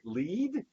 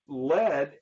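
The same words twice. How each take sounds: First: The vowel is a long E sound. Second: The vowel is a short E sound. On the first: To direct or be in front. "when we pronounce it with a long E sound like lead" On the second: A soft gray metal. "There's kind of the short E sound"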